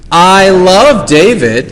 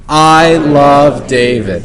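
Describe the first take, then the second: First: It is said warmly, with a smile. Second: It is said flatly, without a smile.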